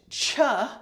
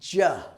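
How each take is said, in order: First: The syllable begins with a voiceless 'ch' sound. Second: The syllable begins with a voiced 'j' sound. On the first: The speaker calls it wrong. "It's not so much cha" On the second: The speaker calls it right. "as it is ja"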